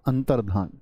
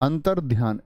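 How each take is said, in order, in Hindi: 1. आखिरी हिस्सा बिना ग्लाइड के बोला जाता है, 'dhaan'. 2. आखिरी हिस्सा 'y' ग्लाइड के साथ बोला जाता है, 'dhyaan'. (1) "अंतर्धान होता है" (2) "ऐसी ध्वनि निकाल लेते हैं"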